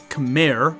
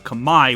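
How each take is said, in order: First: The word is said with an English pronunciation. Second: The word is said with a native Khmer pronunciation. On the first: "which is how you would say it in English" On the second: "which is the proper way to say it um, in their native tongue"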